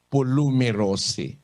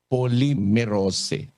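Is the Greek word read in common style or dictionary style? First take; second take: dictionary; common. First: It is read following the dictionary's spelled pronunciation. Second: It is read with the common 'poly' pronunciation. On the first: "kung babasahin mo dito sa given pronunciation sa dictionary ng Greek" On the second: "pangkaraniwan binabasa nila ito, poly"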